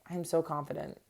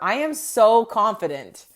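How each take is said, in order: First: It is said flatly, without feeling. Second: It is said with strong, confident feeling.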